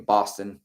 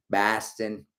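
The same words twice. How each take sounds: First: Said in the usual way. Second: BOSTON with a broad Boston first vowel; Boston accent. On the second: Acted. Host repeats the city name for fun, mock Boston accent. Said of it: "tried to do a Boston accent".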